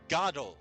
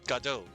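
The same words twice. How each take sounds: First: The first syllable sounds like 'god'. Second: The first syllable sounds like 'guh'. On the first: This is the pronunciation the author intended. "as in God and O" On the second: This is the common pronunciation in the United States. "Ga and then Do, like G A, Ga, and then Do, D O H, like Plato"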